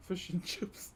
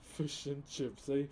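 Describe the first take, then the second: First: Laughing. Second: Gangster. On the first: Real, not acted. Reading the gift name aloud. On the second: Pretend. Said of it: "that actually sounds gangster".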